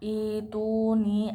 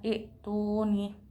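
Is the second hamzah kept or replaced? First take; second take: replaced; kept. First: The second hamzah is replaced by a vowel. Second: The second hamzah is kept as a stop.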